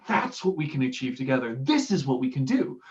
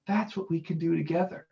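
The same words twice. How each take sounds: First: Mildly more driven, pushing forward; rally them lightly with conviction; a touch of inspirational passion; inspirational drive. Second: Softer, relaxed and unhurried; laid back. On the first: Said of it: "an inspirational drive". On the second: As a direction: say it like you're barely bothered. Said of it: "with this kind of almost laid back voice". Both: Shown as a demonstration.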